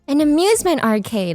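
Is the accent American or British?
American. It is said in a plain American accent.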